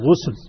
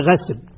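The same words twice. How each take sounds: First: The first vowel is a rounded u sound. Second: The first vowel is not a u sound. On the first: The speaker calls it right. "الغسل بضم الغين" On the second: The speaker calls it wrong. "وليس غسل"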